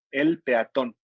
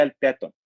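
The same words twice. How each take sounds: First: Said in the usual way. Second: "peatón" with the stress moved off the final syllable; misplaced stress. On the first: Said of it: "en singular sí lleva acento". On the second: Shown as a demonstration. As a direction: say "peatón" wrongly, stressing the A instead of TÓN. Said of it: "si no diría". ("peatón" mal acentuado, con la fuerza en la A)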